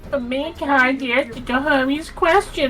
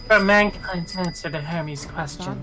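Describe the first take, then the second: First: It is said in a cutesy uwu voice. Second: It is said in a normal voice.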